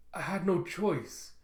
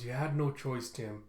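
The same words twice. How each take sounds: First: Higher, drawn-out helpless protest; lightly acted distressed self-defence; shocked plea. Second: Understated comforting voice; gentle consoling. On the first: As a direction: plead in mild shock, stretching the words. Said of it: "still in shock from what he did". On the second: Acted. Quan kneels to console Tim.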